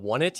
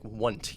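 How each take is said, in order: First: The first part sounds like the word one. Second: The name is squeezed into one syllable. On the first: "I'm gonna call it One It" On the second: "like all in one syllable"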